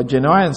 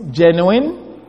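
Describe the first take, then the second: First: "genuine" ending in "-wine"; "genuine" with a long i, rhyming with "wine"; alternative pronunciation. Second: "genuine" ending in a short "-win"; "genuine" with a short i in the last syllable; first pronunciation. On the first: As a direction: say "genuine" as JEN-yoo-wine, lower. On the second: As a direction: say "genuine" slowly as JEN-yoo-win. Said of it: "or genuine, some". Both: Shown as a demonstration.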